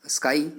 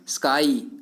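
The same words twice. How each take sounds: First: Said in the usual way. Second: स्काई with the final "eye" vowel drawn out; stressed vowel sound. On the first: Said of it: "sound आ रही है ना". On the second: Shown as a demonstration. Teacher showing students the vowel sound hidden in स्काई, drawn-out "ai". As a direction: stretch the "ai" at the end of स्काई. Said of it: "आई की sound".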